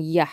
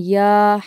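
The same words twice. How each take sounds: First: "yah" with a brief, short a; short vowel. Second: "yah" with the ah drawn out long; long vowel. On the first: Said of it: "the sound is a short sound". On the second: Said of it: "is it long or is it short". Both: Shown as a demonstration.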